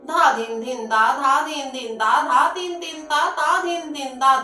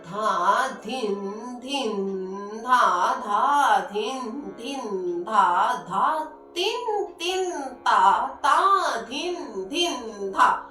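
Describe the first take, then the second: First: The syllables are recited quickly at a fast pace. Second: The syllables are recited at a moderate, relaxed pace. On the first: "इसी तीन ताल को हम तेजी से बोल देंगे" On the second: "ये मध्य है।"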